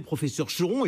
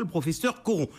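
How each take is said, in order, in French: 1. Le nom commence par un son sh. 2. Le nom commence par un son k. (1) "on disait le professeur Choron" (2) "et pas le professeur Coron"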